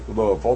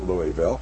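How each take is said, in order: First: The name is said with a Southern pronunciation. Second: The name is said with a non-Southern pronunciation. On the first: "You notice I said that in Southern way" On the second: "not Louisville"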